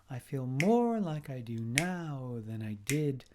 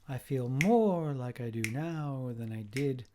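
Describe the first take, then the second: No difference in how they are said.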